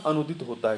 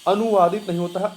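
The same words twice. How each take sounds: First: Said in the usual way. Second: अनुवादित said louder and higher as the wrong form; stressing the error. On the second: Shown as a demonstration. To students, a teacher flags the wrong अनुवादित with emphasis.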